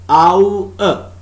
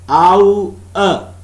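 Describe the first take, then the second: Both takes have the same delivery.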